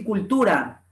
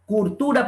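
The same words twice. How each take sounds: First: Said in the usual way. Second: CULTURA said as curtura. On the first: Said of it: "por decir cultura". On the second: Shown as a demonstration. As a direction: put an R in place of the L in "Cultura". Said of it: "Pronunciación de la R en lugar de la L".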